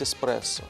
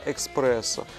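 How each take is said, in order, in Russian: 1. Слово начинается с 'es', без звука k. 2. Слово начинается с 'eks', со звуком k. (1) "естественно, нужно говорить эспрессо" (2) "мы говорим иногда экспрессо"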